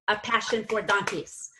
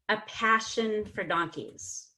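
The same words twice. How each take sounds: First: Every syllable has equal strength and volume. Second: Stressed syllables are strong and unstressed ones reduced. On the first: The speaker calls it wrong. "the four had the same energy" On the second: The speaker calls it right. "But we want it to be"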